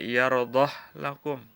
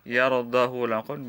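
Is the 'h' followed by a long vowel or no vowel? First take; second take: no vowel; long vowel. First: The h sound has no vowel after it. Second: The h sound carries a long vowel after it.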